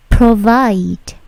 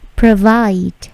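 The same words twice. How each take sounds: First: Provide with a hard aspirated P burst; wrong strong P. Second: Provide with a light P and no puff of air; soft unaspirated P. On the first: Teacher demos the wrong provide with a heavy P puff. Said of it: "Perhatikan bunyi plosifnya ... bukan". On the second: Teacher demos the correct provide with a soft P. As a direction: provide said gently, no burst on the P. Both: Shown as a demonstration.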